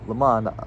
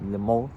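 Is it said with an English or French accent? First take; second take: English; French. First: It is said with an English accent. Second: It is said with a French accent.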